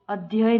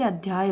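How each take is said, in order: First: अध्यय with short a in "dhyay"; wrong pronunciation. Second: अध्याय with long "dhyaay"; correct pronunciation. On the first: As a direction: say अध्यय with no long vowel. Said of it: "अध्यय नहीं होता है". (अध्यय में "ध्य" छोटा बोलें) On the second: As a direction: draw the aa in अध्याय. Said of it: "बल्कि अध्याय होता है". (अध्याय में "ध्या" लंबा बोलें) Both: Shown as a demonstration.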